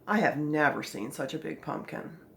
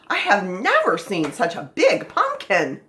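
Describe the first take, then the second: First: It is read flatly, without strong feeling. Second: It is read excitedly, with strong feeling. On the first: The speaker calls it wrong. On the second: The speaker calls it right.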